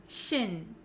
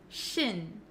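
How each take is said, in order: First: The vowel is a short, unrounded I sound. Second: The vowel is a short, unrounded I sound.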